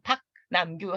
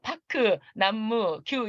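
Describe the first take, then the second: First: Final consonants close the syllables with no vowels. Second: Extra vowels are sounded after the final consonants. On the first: The speaker calls it right. "그냥 박, 남규" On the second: The speaker calls it wrong. "이렇게 하면 이제 일본식 발음이 되죠"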